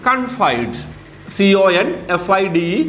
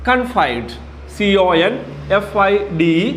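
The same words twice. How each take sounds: Both takes have the same delivery.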